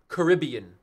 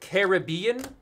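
First: The word does not begin like caribou. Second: The word begins sounding like caribou. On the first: "Number two" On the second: "Number one, Caribbean, like caribou"

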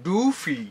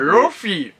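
First: The first vowel sounds like a long 'u'. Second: The first vowel sounds like 'o'. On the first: The speaker calls it right. "ノンノンノン、ルーフィーってやってるんですよ" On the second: The speaker calls it wrong. "ルフィ役の人が、なんかロフィーってなっちゃうらしいんですね"

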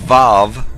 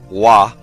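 First: The letter name begins with a V sound. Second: The letter name begins with a W sound. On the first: This is the modern Hebrew pronunciation. "Vav in the modern Hebrew" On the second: This is the ancient Hebrew pronunciation. "or Wa in the ancient Hebrew"

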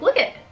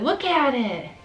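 First: The word 'at' is dropped entirely. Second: The word 'at' is pronounced in full. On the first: This is how people in Michigan say it. "We just completely eliminate the at" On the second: This is how people outside Michigan say it. "Other people would be like"

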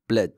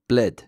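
First: The first syllable's short vowel disappears. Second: The first syllable's short vowel disappears.

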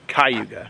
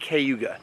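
First: The first syllable has a different vowel than 'kay'. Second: The first syllable sounds like 'kay'. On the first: The speaker calls it wrong. "not Cayuga" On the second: The speaker calls it right. "pronounced Cayuga with a C-A-Y"

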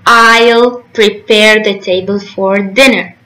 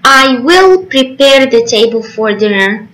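First: The words 'I will' are contracted to 'I'll'. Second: The words 'I will' are said in full.

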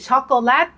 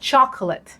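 First: It is said with a Thai pronunciation. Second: It is said with an English pronunciation. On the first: "การออกเสียงแบบไทยคือช็อกโกแลต" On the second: "ภาษาอังกฤษคนต่างชาติเขาออกเสียง"

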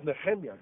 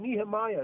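First: The name is said in its original form. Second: The name is said the familiar anglicized way. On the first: This is the person's actual name. "But his name is Nehemiah" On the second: This is how the listeners usually say it. "as you call them"

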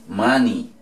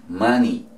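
No difference in how they are said.

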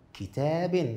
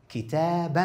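First: The word ends in -in. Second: The word ends in -an. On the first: "بالكسر" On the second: "بالفتح"

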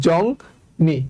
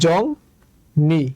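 The two takes are said the same way.

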